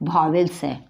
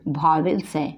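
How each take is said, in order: No difference in how they are said.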